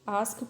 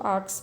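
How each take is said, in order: First: The s sound comes before the k. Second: The s sound comes after the k. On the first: The speaker calls it right. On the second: The speaker calls it wrong.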